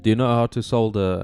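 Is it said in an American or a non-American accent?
non-American. It is said in a non-American accent.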